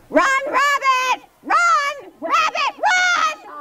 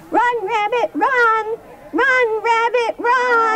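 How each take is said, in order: First: It is said in a big, noisy voice. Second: It is said in a medium-sized voice.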